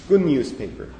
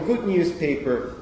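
First: The d of 'good' becomes an n sound. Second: The d of 'good' is clearly pronounced.

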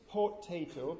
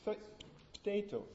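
First: The first vowel is fully pronounced. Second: The first vowel is dropped or nearly lost. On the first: The speaker calls it wrong. "I don't say potato" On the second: The speaker calls it right. "but potato"

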